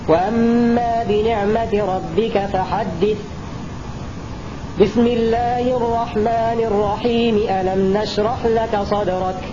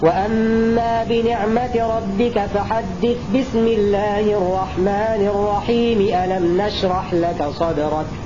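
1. يكون الوقف قبل البسملة فقط. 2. لا يوجد وقف حول البسملة. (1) "فصل آخر السورة عن البسملة ووصل البسملة مع بداية السورة التالية" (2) "وصل آخر السورة مع البسملة مع بداية السورة التالية"

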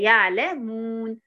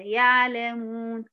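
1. الشفتان تنطبقان بخفة على m. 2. الشفتان تتركان فرجة على m. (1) "لا هي يعلمون، تمام" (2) "ولا برضو سيبي فرجة"

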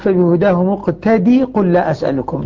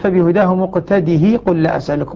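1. يُحذف صوت الهاء تمامًا. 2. تُبقى الهاء مع كسرة قصيرة. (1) "العلماء قالوا لماذا حذفت؟" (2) "يعني يبقي الهاء مكسورة"

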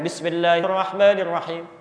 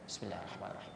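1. Frasa itu diucapkan dengan keras dan jelas. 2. Frasa itu diucapkan pelan, hampir di bawah napas. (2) "itu bismillahnya disirkan. ... Sir"

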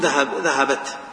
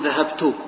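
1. تنتهي الكلمة بالتاء دون حركة. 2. تنتهي الكلمة بحركة قصيرة u. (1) "وبالسكون" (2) "يمكن أحركها بالضم أقول"

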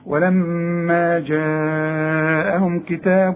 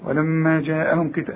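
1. الحركة في "جاءهم" ممدودة طويلة. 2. الحركة في "جاءهم" مقصورة قصيرة. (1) "اهو ده المد الواجب" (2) "مش تقول لي ولما جاءهم كتاب"

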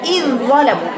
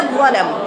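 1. يُنطق صوت الذال في آخر الكلمة منفصلاً. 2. تُدغم الذال تماماً في الصوت الذي بعدها. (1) "ما تقراهاش ابدا اذ ظلموا" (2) "لكن تقراها اذ على طول"

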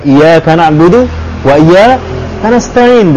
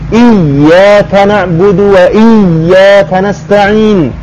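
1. Bunyi 'y' pada iyaka dibaca pendek, tunggal. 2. Bunyi 'y' pada iyyaka dibaca dobel. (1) "jadi bukan ... Hilang satu huruf" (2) "Sampai tasjid sekalipun"

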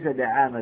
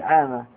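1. المقطع الأول فيه حركة 'a'. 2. المقطع الأول فيه حركة 'i'. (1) "وليس دعامة بالفتح" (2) "ودعامة لكسر الدال"

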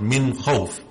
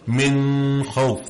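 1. تُنطق النون بوضوح دون غنّة. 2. تُنطق النون مع الغنّة. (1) "Just make it apparent" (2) "They'll make that gunna sound"

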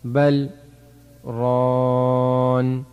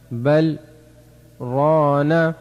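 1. تنتهي الكلمة الأخيرة بدون حركة نهائية. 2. تنتهي الكلمة الأخيرة بفتحة قصيرة. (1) "وفي حال الوقف" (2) "نون فتحنا"

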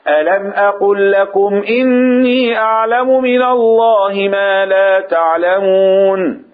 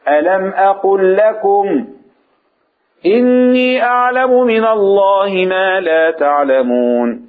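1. لا توجد وقفة بعد 'lakum'. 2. توجد وقفة مباشرة بعد 'lakum'. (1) "الطريقة الثانية" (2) "ونقف عند كلمة لكم"

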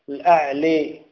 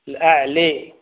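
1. الصوت الأخير يميل بقوة نحو الكسرة. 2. الصوت الأخير يميل بقوة نحو الكسرة.

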